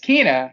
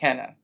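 First: The first vowel is a long 'ee' sound. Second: The first vowel is a short 'eh' sound. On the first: The speaker calls it right. "It's Kena" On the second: The speaker calls it wrong. "the way it's written, it looks like Kena"

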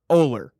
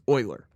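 First: The name begins with an 'oh' vowel. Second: The name begins with an 'oy' vowel. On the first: The speaker calls it right. "It's Oler. O-H-L-E-R" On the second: The speaker calls it wrong. "The common one is Euler. What in there is oi?"

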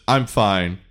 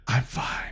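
First: It is said at normal loudness. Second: It is said more quietly.

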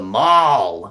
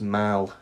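First: Mall is said with the American vowel. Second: Mall is said with the British vowel. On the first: "Americans call it the mall" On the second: "But in the UK, it should be pronounced mall"

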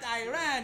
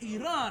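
First: It uses the American pronunciation of the name. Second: It uses the native pronunciation of the name. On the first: The speaker calls it wrong. "you disrespectfully pronounce it wrong. It is not Iran" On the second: The speaker calls it right. "it is Iran"

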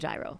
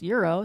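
First: The word begins with a 'j' sound. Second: The word begins with a 'y' sound. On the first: This is the usual local way of saying it. "but it's I would say gyro" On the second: This is how it is said in Greek. "they call it euros"

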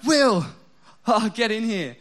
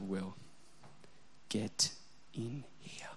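First: The voice sounds bright and excited. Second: The voice is a quiet, menacing whisper. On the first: She wants to show him something funny. "she's, like, watching a funny thing on YouTube she wants me to see" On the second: He is in serious trouble. "The whisper, the quieter it gets, the more scared I get"

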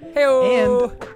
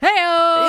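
First: It is said at a normal, quieter volume. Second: It is shouted as loud as possible.

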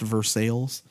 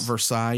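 First: The name is said the local Kentucky way. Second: The name is said the French way. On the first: The speaker calls it right. "which is pronounced Versailles" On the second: The speaker calls it wrong. "not Versailles"

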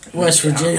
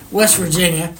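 First: It is said in a plain, ordinary accent. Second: It is said in an exaggerated, mocking rural accent. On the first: The speaker calls it wrong. "I didn't say that right" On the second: The speaker calls it right. "Let me take some of my teeth out"

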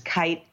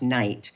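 First: The name begins with a hard K sound. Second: The name begins with an N sound. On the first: The speaker calls it right. "there is no N and it's a hard K" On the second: The speaker calls it wrong. "people are tempted to pronounce it Morris Knight"

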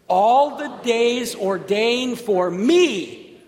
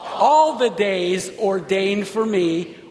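First: The word me is stressed. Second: The word all is stressed. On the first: "Say it again with the emphasis on me" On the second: "Say it again with the emphasis on all"

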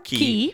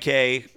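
First: The word rhymes with 'see'. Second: The word rhymes with 'day'. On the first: "I say key. I think it's key" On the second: "depending on how you want to pronounce it"

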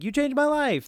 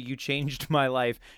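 First: It is said excitedly, like an exclamation. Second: It is said flatly, like a full stop.

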